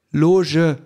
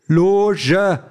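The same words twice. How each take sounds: First: "Loge" said slowly and very clearly, high; overly distinct. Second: "Loge" higher and pushed harder; louder. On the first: Sandra articulates "Loge" with exaggerated care to the android. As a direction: spell out "Loge" to the machine. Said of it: "sagt Sandra überdeutlich". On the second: Sandra repeats "Loge" louder to the deaf android. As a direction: repeat "Loge" with more force. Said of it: "sagt Sandra noch einmal lauter". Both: A narrator's reading.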